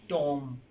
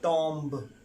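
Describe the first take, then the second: First: The word ends without a b sound. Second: The word ends with a b sound. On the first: The speaker calls it right. "B is silent in this word" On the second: The speaker calls it wrong. "not tomb"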